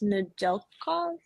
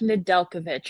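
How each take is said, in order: First: The name ends with a 'kov' sound. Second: The name ends with a 'kovic' sound. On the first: "that's not how you say that" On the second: "I'm gonna guess it's like Nedeljkovic"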